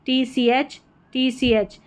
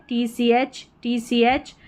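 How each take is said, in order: Both takes have the same delivery.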